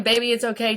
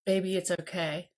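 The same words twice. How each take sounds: First: Said in the usual way. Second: Put-on calm a crying child gently; hushed tender reassurance; soothing reassurance. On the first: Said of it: "guess who I'm saying". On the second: Shown as a demonstration. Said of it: "my energy needs to say".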